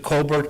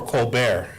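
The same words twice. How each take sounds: First: Colbert as COAL-bert, final T sounded; pronounced with hard T. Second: Colbert as coal-BEAR, silent T; French pronunciation. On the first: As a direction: say Colbert the English way, ending in -bert. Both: Shown as a demonstration. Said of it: "do you pronounce it Colbert or".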